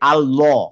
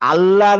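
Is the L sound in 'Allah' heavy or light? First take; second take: heavy; light. First: The L is heavy, with the lips rounded. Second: The L is light, with the mouth open. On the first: "মুখটা আমি গোল করতেছি" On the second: "আল্লাহ না বলে"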